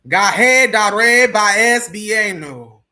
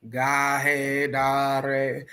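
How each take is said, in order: First: Louder, slow commanding spell; slow, forceful, authoritative incantation; with authority. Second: Said in the usual way. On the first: Shown as a demonstration. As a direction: command the spirits to obey. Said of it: "say with a certain amount of authority". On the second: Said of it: "meant to say with a certain amount of authority".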